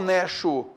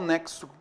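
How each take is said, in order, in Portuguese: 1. O x não tem som de ks. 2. O x tem som de ks. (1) "Eu não falo nexo" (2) "eu falo nexo"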